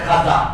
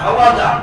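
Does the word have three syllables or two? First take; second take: two; three. First: It has two syllables, with no 'wa' sound. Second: It has three syllables, with a 'wa' sound. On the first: This is the simplified form in common use. "সহজ ভাবে প্রচলিত হয়ে গেছে" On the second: This is the original Persian form. "উচ্চারণ কঠিন"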